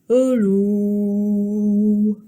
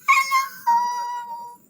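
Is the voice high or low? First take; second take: low; high. First: It is said in a very low voice. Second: It is said in a very high voice.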